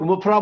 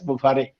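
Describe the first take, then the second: First: The name is said short, ending in 'ra'. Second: The name is said with a long middle, ending 're'. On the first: The speaker calls it wrong. "हम लोग मुफरा बोलते हैं" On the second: The speaker calls it right. "उनका नाम actual है S मुफारे"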